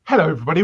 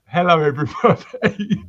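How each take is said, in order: First: It is said quickly. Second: It is said more slowly.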